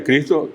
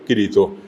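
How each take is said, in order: First: Cristo with the CR cluster and S; con CR. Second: Kirito in three syllables, without S; I intercalada. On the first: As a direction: pronounce Cristo in two syllables. (Cristo, en dos sílabas con CR) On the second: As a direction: slip an I between K and R in Kirito. (Kirito, con una I tras la K) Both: Shown as a demonstration. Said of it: "Una I en el medio".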